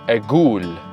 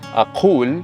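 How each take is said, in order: First: The middle consonant is a hard G sound. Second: The middle consonant is a deep Q sound. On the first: "they say Agul" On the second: "instead of uh, saying Aqul"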